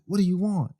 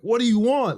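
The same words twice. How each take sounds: First: It is said at a calm, normal volume. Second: It is yelled loudly and forcefully.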